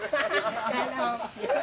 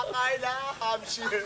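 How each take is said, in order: First: "Carla Hampshire" dragged out very slowly; stretched name. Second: "Carla Hampshire" spoken slowly, pitched up; slow name. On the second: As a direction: draw out "Carla Hampshire" deliberately. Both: Shown as a demonstration. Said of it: "Hindi mo siya kaya".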